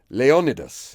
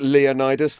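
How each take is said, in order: First: The name is said the original Greek way. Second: The name is said the usual English way. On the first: The speaker calls it right. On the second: The speaker calls it wrong.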